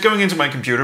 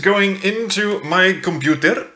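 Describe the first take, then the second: First: It is said in a normal speaking voice. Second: It is said in an odd put-on voice.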